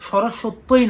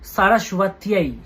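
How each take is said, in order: First: It is said in a casual Bengali-style pronunciation. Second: It is said in a careful Sanskrit pronunciation. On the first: The speaker calls it wrong. "নয়" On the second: The speaker calls it right. "সংস্কৃত উচ্চারণটা ঠিকঠাকভাবে জানতে হবে"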